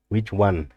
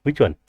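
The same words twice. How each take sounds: First: Said in the usual way. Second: Louder, higher insistent question; emphatic. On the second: Real, not acted. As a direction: demand to know which one. Puzzling over shorted part.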